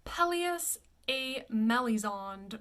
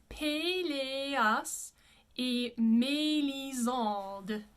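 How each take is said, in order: First: Slow Pelleas et Melisande, "PELL-ee-us ay MELL-i-zond"; thoroughly English vowels in Pelleas et Melisande; gringo pronunciation. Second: Pelleas et Melisande as "pay-lay-ahs ay may-lee-zahnd"; slow, closed é in Pelleas et Melisande; French pronunciation. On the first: Teacher mimics a gringo reading, anglicized. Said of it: "as gringo as possible". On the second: Teacher models the correct title, French pronunciation. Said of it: "the pronunciation is". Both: Shown as a demonstration.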